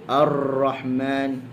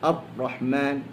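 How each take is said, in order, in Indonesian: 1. R digetarkan sangat kuat dan panjang. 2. R dijepit pendek, terdengar seperti t. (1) "dia terlalu kuat" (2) "dia jadi macam macam tasydid pada huruf ta"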